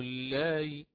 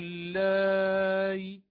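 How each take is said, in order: First: The vowel before the glottal stop is short. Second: The vowel before the glottal stop is long. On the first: "وأمد المد الذي قبلها بالقصر" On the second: "أشبعت اللائي"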